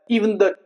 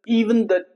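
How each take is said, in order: Both takes have the same delivery.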